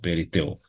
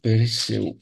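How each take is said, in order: First: The consonant before the ending is a t sound. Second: The consonant before the ending is an s sound. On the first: This is the Attic dialect form. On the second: This is the common form.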